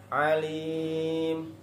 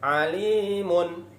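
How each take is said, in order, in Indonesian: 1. Kata ini berhenti tanpa akhiran terakhirnya. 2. Kata ini tetap memiliki akhiran -un. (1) "wakofnya alim" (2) "bukan alimun"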